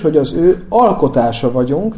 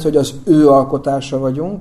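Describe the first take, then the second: First: The stress falls on the word alkotása. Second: The stress falls on the word ő. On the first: We are creations, made by someone. "a hangsúly azon van, hogy mi alkotások vagyunk" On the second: We are his creation and nobody else's. "ahol a hangsúly azon van, nem másé, hanem az övé"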